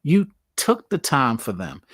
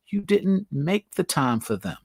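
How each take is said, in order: First: "took" set against "make"; stress on took. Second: Slow, didn't leaned on hard; stress on didn't. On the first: Contrasting make and take time for family, stressed. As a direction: lean on "You took the time". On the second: Telling viewers about family, slow stressed contrast. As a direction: hit "didn't" and "make the time". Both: Shown as a demonstration. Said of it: "what I mean by that is".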